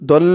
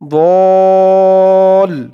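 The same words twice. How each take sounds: First: The vowel is cut short before the l. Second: The vowel is stretched long before the l. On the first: The speaker calls it wrong. "দল এরকম বলে ফেলে" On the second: The speaker calls it right. "দল বলে চার আলিফ টান দিতে হবে"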